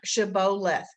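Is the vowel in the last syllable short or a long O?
long O. It is said with a country Georgia long O.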